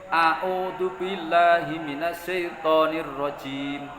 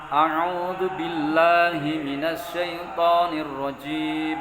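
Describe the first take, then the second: First: The first word starts with a plain vowel. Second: The first word starts with a throaty consonant. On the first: The speaker calls it wrong. "Biasanya begini yang yang dibaca itu. ... A'udzu bukan ain tapi dibaca alif" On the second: The speaker calls it right. "saya ulangi lagi"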